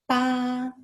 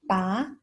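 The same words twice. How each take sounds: First: The pitch stays high and level. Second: The pitch rises from mid to high. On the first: "the first tone" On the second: "Second tone, the rising tone"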